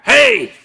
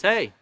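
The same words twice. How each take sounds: First: High, loud hallway shout; teacher shouting hey down the hallway; sharp yell. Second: Said in the usual way. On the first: Shown as a demonstration. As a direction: snap it at a student across the hallway. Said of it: "it means very different". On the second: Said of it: "or you can go through the hallway".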